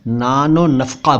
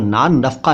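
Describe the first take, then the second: First: An 'o' vowel links the two words. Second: The two words are joined with no vowel between. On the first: The speaker calls it right. "नानो नफ़क़ा बोलना चाहिए" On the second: The speaker calls it wrong. "इनको नान नफ़क़ा न बोलकर"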